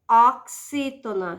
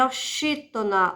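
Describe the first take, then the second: First: "oxítona" with X as "ks"; X pronounced "ks". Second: "oxítona" with X as a "sh" sound; spelling pronunciation. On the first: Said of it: "você pronuncia". ("oxítona" com X som de "cs") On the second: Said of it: "Se escreve oxítona". ("oxítona" com X som de "ch") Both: Shown as a demonstration.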